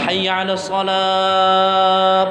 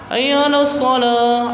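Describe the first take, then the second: First: The phrase is said slowly and deliberately. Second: The phrase is said quickly and hurriedly. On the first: The call is conveyed thoughtfully to the listeners. The speaker calls it right. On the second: The call is rushed rather than conveyed to listeners. The speaker calls it wrong. "kayak komat gitu"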